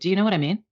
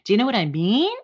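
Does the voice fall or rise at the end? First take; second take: fall; rise. First: The pitch falls at the end. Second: The pitch rises at the end. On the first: It sounds like a confident statement. The speaker calls it right. "Instead of like" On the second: It sounds like an uncertain question. The speaker calls it wrong. "a lot of uptalk"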